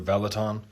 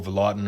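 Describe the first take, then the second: First: "Veloton" as VEL-uh-tahn; "Veloton" with an open final syllable, VEL-uh-tahn; alternative pronunciation. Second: "Velotten" as vuh-LOT-un; "Velotten" with a weak first syllable, vuh-LOT-un; middle-syllable stress. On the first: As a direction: say "Veloton" starting on a full VEL. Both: Shown as a demonstration. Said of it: "I don't know how to pronounce it".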